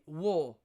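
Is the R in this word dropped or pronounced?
dropped. The R sound is dropped completely. "as in a Cockney accent, no R"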